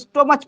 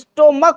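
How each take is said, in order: First: The word ends with a ch sound. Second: The word ends with a k sound. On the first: The speaker calls it wrong. "कोई कोई लोग इसको स्टोमच पढ़ते हैं, लेकिन स्टोमच नहीं होता" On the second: The speaker calls it right. "ये स्टोमक होता है"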